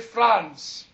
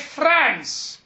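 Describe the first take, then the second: First: It uses the speaker's own pronunciation of the word. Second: It imitates the listener's pronunciation of the word. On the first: This is how the speaker says it. "and I say France" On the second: This is how the other person says it. "It's like you say France"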